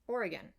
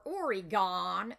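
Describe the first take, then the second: First: Said in the usual way. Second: "Oregon" as loud, stretched OR-ee-GONE; mispronounced Oregon. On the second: Acted. Mocking Americans asked to name the state, "Oregon" stretched to OR-ee-GONE. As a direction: hit a long final GONE in "Oregon". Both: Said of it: "Americans can't even say Oregon right".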